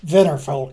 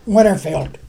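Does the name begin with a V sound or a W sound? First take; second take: V; W. First: The name begins with a V sound. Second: The name begins with a W sound.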